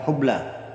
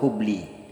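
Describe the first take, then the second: First: The word ends in an a vowel. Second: The word ends in an i vowel. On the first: The speaker calls it right. "huruf lamnya di situ berharokat fathah" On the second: The speaker calls it wrong. "atau hubli"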